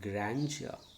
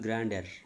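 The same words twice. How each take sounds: First: The middle consonant is said as a 'j' affricate. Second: The middle consonant is said without the 'j' affricate. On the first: The speaker calls it right. "No, it is grandeur" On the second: The speaker calls it wrong. "People used to this one as grandeur"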